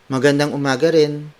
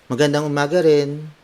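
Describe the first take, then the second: No difference in how they are said.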